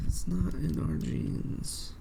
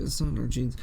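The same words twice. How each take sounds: First: Slow whispered mock alien line, stretching "not"; mock Kett whisper. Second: Said in the usual way. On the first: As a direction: whisper "It's not in our genes" very slowly, parodying the Kett. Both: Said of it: "why are the Kett talking like this".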